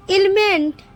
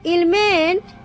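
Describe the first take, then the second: No difference in how they are said.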